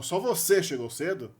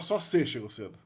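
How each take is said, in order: First: The pronoun is said in full, two syllables. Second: The pronoun is cut to one syllable. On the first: The speaker calls it right. "der ênfase no você com a palavra só" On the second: The speaker calls it wrong. "Não tem como falar"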